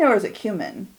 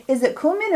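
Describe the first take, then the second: First: "cumin" said as KYOO-min; second pronunciation variant. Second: "cumin" said as COO-min; first pronunciation variant. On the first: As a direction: say "cumin" opening with a y-glide, "kyoo". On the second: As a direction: say "cumin" opening on a plain "coo". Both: Shown as a demonstration. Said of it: "is it cumin or is it cumin".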